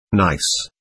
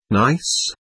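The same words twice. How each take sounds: First: "Nice." low, soft and falling; flat confirmation. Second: Soft rising "Nice?" in disbelief; questioning echo. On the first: Lies answering Alishaw, a low soft falling "Nice.". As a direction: settle it with a low final fall. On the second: Alishaw echoing Lies, a soft doubtful rising "Nice?". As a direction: throw the word back as a quiet question. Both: A narrator's reading.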